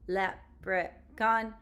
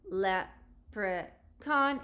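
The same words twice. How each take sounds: First: It is said in a robot-like voice. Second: It is said in a natural voice.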